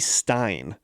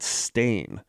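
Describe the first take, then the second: First: The vowel sounds like the one in 'mine'. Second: The vowel sounds like the one in 'main'. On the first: This is how people remember the name. The speaker calls it wrong. "S T E I N" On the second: This is how the name really is. The speaker calls it right. "It's it's Stain, S T A I N"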